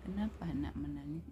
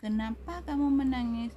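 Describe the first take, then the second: First: Gentle question. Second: High, loud demand; acted cross teacher, voice raised; harsh scolding question. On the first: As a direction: ask the child kindly at an easy pitch. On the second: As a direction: snap the question at the child as a demonstration. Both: Shown as a demonstration. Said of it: "beda intonasi".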